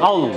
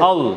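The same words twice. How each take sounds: The two takes are said the same way.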